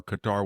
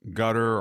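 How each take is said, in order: First: "Qatar" said as kuh-TAR; alternative pronunciation. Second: "Qatar" said like "gutter"; first variant pronunciation. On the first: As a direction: say "Qatar" with stress on the second syllable. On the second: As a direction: say "Qatar" as GUT-er, stress first. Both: Shown as a demonstration. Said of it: "whatever we want to call it".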